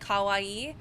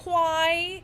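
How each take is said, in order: First: It is said with Japanese-style pronunciation. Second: It is said with English-style pronunciation. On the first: The speaker calls it right. "instead of saying kawaii" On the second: The speaker calls it wrong. "they pronounce it like an English speaker"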